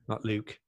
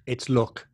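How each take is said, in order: First: "Luke" with a long oo, soft and low; mocked long-oo pronunciation. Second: "Luke" said as look, short vowel; short-oo correction. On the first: Mimicking co-host's look as Luke, long oo. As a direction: say "Luke" with the oo of boot, quietly. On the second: Teasing co-host's way of saying look, short oo. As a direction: say "Luke" with the oo of put. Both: Shown as a demonstration. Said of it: "not Luke".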